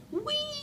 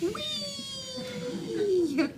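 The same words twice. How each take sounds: First: High gliding whee; roller coaster whee. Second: Long high whee falling down; roller coaster whee. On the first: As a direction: sound sweeps up like a ride. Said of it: "I say like a roller coaster". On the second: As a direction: sweep it down like a coaster drop. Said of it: "Want me to do that again?". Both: Shown as a demonstration.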